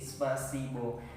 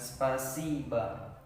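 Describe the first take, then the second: First: The word ends with a clear 'o' vowel. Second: The word ends with an 'a' vowel. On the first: The speaker calls it wrong. "Jadi spasibo" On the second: The speaker calls it right. "Tapi di dalam bahasa Rusia dibaca dengan spasiba"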